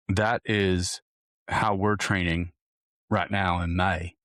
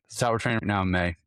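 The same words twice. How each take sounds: First: Put-on slow, drawn-out Southern accent. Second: Said in the usual way. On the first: Coach wrapping up his May training plan, in a slow Southern drawl. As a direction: drawl it out like a Southern good ol' boy. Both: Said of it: "I don't know why I went to a Southern accent".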